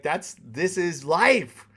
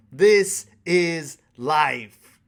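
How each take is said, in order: First: Slow, louder emphasis on life; slow acceptance. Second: Very slow and loud, each word weighted; heavy emphasis. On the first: Telling viewers dating is life, slow and firm. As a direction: draw it out with calm conviction. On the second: Repeating to viewers that this is life, very slow loud emphasis. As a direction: land it slowly like a final truth. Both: Real, not acted.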